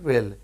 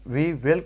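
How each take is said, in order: First: "will" as we'll, one syllable; contracted pronunciation. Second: Said in the usual way. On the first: Shown as a demonstration. Teacher showing we will said in one go, contracted pronunciation. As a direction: merge we and will into a single "will", we'll. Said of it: "مطلب ایک دفعہ ہی will بولیں گے". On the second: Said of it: "we will کو بولیں گے".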